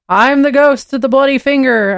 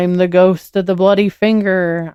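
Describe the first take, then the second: First: It is said loudly. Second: It is said quietly.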